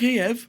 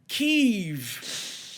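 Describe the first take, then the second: First: The name is said the usual English way. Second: The name is said the Ukrainian way.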